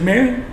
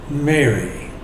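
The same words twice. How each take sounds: First: Higher, rising "Mary"; questioning call. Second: Soft, low, falling "Mary"; tender naming. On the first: Angels questioning weeping Mary. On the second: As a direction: say "Mary" gently, letting it settle. Risen Jesus calls her by name. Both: Acted.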